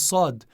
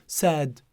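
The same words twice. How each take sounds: First: The first consonant is heavy and emphatic. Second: The first consonant is light and soft. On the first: The speaker calls it right. "So sad is sad" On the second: The speaker calls it wrong. "I can't say sad, no"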